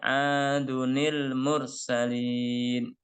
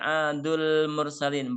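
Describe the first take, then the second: First: An added 'ni' sound links the two words. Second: The words join directly with no added 'ni' sound. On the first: The speaker calls it right. "Tapi dibacanya adunil" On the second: The speaker calls it wrong. "ini tidak dibaca adul mursalin, bukan"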